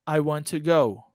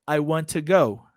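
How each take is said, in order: The two takes are said the same way.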